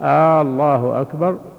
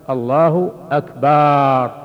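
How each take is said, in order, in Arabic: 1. الحركة الأولى في «الله» ممدودة طويلاً. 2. الحركة التي بعد الباء في «أكبر» ممدودة. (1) "يمد همزة، الهمزة الأولى" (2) "لو مد الباء فقال"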